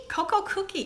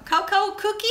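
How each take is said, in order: First: Coco Cookie. with a confirming falling end; settled statement. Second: Coco Cookie? with a questioning rising end; puzzled question. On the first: Naming the doll for the viewers, now sure. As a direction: say Coco Cookie. as the final answer. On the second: Reading the doll's name aloud to viewers, unsure. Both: Shown as a demonstration. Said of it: "What's her name?".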